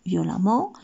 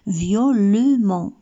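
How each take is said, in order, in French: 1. La voyelle devant le double m se prononce comme « a ». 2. La voyelle devant le double m se prononce comme « e ». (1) "كنقراوه ا" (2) "normalement خصنا نقراوها violemment"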